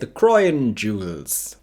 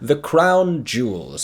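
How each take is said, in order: First: Crown is drawn out in an exaggerated posh accent. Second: Crown is said in a plain, ordinary accent.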